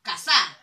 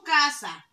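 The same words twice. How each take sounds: First: Casa said loud with the force on the final sa; casa, last syllable punched; stress on SA. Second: Casa with a raised, forceful first syllable; casa, weight on the first syllable; stress on CA. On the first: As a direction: push the end of casa. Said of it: "hago la mayor fuerza de voz". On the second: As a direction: hit the ca of casa. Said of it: "La sílaba tónica es la K". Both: Shown as a demonstration.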